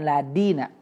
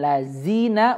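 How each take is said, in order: First: The middle consonant is a d sound. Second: The middle consonant is a z sound. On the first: "illaladina jadi dal" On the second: "Illallazina jadi zai"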